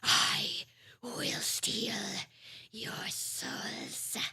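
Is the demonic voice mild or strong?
mild. It is said in a mildly demonic voice.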